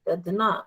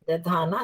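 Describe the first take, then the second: First: The vowel after ध is short. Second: The vowel after ध is long. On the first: The speaker calls it right. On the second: The speaker calls it wrong.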